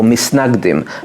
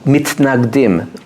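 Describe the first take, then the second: First: The middle consonant is an s sound. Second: The middle consonant is a t sound. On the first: This is the everyday colloquial form of the word. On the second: This is the formal form of the word.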